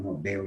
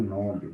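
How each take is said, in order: First: "Nobel" stressed on the final syllable, no-BEL; stress on last syllable. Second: "Nobel" stressed as NO-bel; wrong stress on first syllable. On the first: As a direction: hit the end of "Nobel". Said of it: "Que é uma oxítona". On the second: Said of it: "e não Nobel". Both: Shown as a demonstration.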